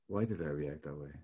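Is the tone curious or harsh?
curious. It is asked in a gently curious tone.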